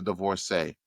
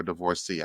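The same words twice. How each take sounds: First: "divorcee" with the last syllable as "say"; divorcee ending in AY. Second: "divorcee" with the last syllable as "see"; divorcee ending in EE. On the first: Podcast host unsure of the word, "divorcee" ending in an AY sound. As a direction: say "divorcee" to rhyme with "day". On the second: Podcast host trying the other way, "divorcee" ending in an EE sound. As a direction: say "divorcee" to rhyme with "free". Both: Shown as a demonstration. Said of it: "I think is how you say it".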